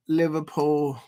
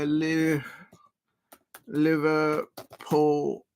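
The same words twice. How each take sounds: First: Said in the usual way. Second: Liverpool stretched very slowly in a mock Liverpool accent; bad Liverpool accent. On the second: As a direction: drag out Liverpool in a poor Liverpool accent. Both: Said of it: "very bad Liverpool accent".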